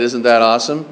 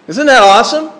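First: Low, flat "Isn't that awesome?" with no lift; unexcited. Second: Bright, rising "Isn't that awesome?" with a lift on "that"; pitched up and eager; excited question. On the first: Retold or imitated. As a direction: mimic a bored congregation. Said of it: "didn't sound too excited". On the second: Shown as a demonstration. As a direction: sell it with real enthusiasm. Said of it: "didn't sound too excited when I just said".

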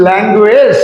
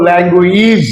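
First: ল্যাঙ্গুয়েজ with "e" in the last syllable; old "-ej" ending. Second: ল্যাঙ্গুয়েজ with long "i" in the last syllable; new "-ij" ending. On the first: Teacher recalling the students' way, ল্যাঙ্গুয়েজ with "-ej". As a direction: say ল্যাঙ্গুয়েজ as "lang-gu-ej". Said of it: "আগে বলেছেন". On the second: Teacher showing the corrected way, ল্যাঙ্গুয়েজ with "-eez". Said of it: "আর এখন বলবো". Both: Shown as a demonstration.

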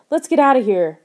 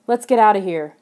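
First: Loud, higher urgent shout. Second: Loud urging at normal pitch. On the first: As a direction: shout to get everyone out fast. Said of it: "Lauren shouted". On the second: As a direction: urge the others to leave, without screaming. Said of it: "Lauren urged". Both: A narrator's reading.

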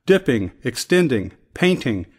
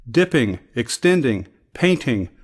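No difference in how they are said.

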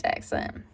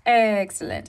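First: Breathy whispered excellent. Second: Said in the usual way. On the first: Shown as a demonstration. Repeated word, second whispered.

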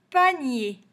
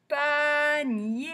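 First: Said in the usual way. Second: Panier stretched into two long, higher syllables; sing-song Pa-nier, each vowel held; drawn-out syllables. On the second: Shown as a demonstration. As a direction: sound out Panier slowly for learners. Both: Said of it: "on va chercher tous les mots".

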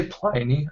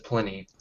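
First: "Pliny" with first syllable like "ply"; long-i Pliny. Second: "Pliny" with the i of "pin"; short-i Pliny. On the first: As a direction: say "Pliny" as PLY-nee, querying it. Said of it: "do you guys say Pliny". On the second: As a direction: say "Pliny" as PLIN-ee. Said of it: "I've always said Pliny". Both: Shown as a demonstration.

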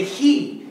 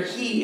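First: "He" hit higher and louder, standing alone; emphatic he. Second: Said in the usual way. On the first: Shown as a demonstration. Pastor stressing the angel's word to the church, "He" punched high and loud. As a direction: punch the single word "He" like a verdict. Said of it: "and that word there, "he," is emphatic". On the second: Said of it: "is emphatic".

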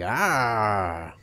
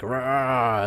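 First: Thin, feeble little roar; a limp, breathy dino call; weak dinosaur sound. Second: Dinosaur roar. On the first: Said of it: "the other one will sound like". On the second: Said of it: "one dinosaur might sound like". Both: Pretend.

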